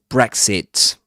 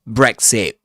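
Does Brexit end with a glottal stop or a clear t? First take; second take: clear t; glottal stop. First: The final t is fully released. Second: The final t is a glottal stop. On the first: "not Brexit" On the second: "That at the end of Brexit is called glottal stop"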